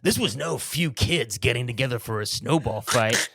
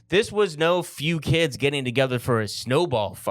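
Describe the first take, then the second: First: It is said in a changed, put-on voice. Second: It is said in his ordinary voice.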